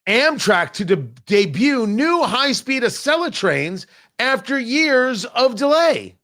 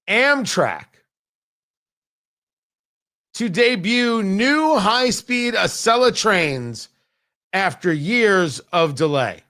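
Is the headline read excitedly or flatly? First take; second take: excitedly; flatly. First: It is read excitedly, with lots of energy. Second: It is read flatly, with little energy.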